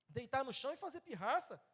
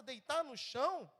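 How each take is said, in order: First: "Deitar" marcado no início, o resto segue normal; ênfase em deitar. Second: "deitar no chão" lento, com "chão" forte e mais alto; ênfase em chão. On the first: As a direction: destaque "Deitar" e siga em frente. (acento principal em "Deitar", resto corrido) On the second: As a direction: arraste a frase e bata em "chão". ("deitar no chão" devagar, acento forte em "chão") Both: Shown as a demonstration. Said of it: "Não é possível a gente ficar fazendo pirraça".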